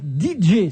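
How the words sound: The letters are said with English letter names. "si vous le prononcez à l'anglaise"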